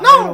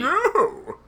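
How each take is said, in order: First: It is said in a Mickey Mouse voice. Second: It is said in an old man's voice.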